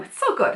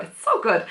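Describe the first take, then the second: First: Very high, squeaky gushing; gushing squeal. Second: Said in the usual way. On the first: Real, not acted. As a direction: gush with the voice shooting up. Gushing over favourite trope.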